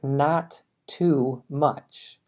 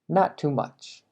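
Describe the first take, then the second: First: Both T sounds are pronounced separately. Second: The two T sounds merge into one. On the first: "si quieres realmente pronunciar cada sonido" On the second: "la vida real vas a escuchar"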